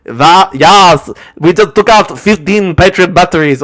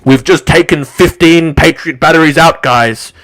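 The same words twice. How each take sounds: First: Loud mock German accent; shouty caricature of a German accent; Kim dot com, Germanic accent. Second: Louder, mocking blowhard announcement; forceful mock bragging; Kim dot com. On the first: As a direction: bellow it in a hammed-up German accent. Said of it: "he's also got the Germanic accent". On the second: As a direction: announce it as a lumbering, coping boaster. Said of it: "this lard monster goes".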